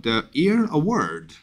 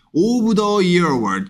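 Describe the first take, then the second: First: "Year" lifted afresh, then falling on "Award"; rise again on Year. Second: "Of the Year Award" sliding steadily down without a new rise; steadily falling tune. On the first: Teacher models capitalised award name, renewed rise on "Year". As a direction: bring the pitch back up at "Year". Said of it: "Year부터 대문자가 되기 때문에 다시 올라가야 됩니다". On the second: Teacher shows the tune to avoid, steady descent. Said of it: "계속 꾸준히 내려가면 안 돼요". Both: Shown as a demonstration.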